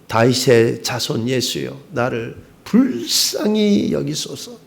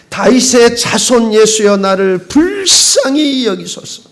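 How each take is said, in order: First: It is cried at normal loudness. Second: It is cried out much louder.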